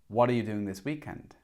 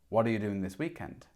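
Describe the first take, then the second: No difference in how they are said.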